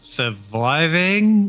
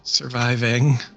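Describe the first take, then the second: First: The voice rises at the end. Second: The voice falls at the end. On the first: It is an unsure, questioning toast. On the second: It is a confident toast.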